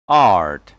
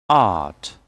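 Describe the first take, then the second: First: "Art" with the R sounded; American pronunciation. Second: "Art" with long "ah", silent R; British pronunciation. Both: Shown as a demonstration. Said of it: "And American English will be".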